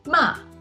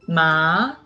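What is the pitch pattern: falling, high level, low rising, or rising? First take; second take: falling; rising. First: The pitch falls sharply from high to low. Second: The pitch rises from middle to high. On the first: "The fourth tongue is a falling tongue" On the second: "The second tongue is a rising tongue"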